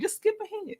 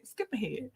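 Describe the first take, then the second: First: A silly high chirp telling them to skip; playful squeaky aside, much higher and softer; squeaky high skip ahead. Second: A hushed repeat to herself; soft murmured repeat of the advice; quiet echo. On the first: Telling replay viewers to skip. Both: Acted.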